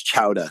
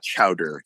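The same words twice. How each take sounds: First: It is said with a New England accent. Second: It is said with a General American accent. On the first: "certain words" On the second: "not chowder"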